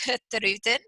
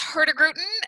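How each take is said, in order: First: It is said with a Norwegian accent. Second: It is said with a North American accent.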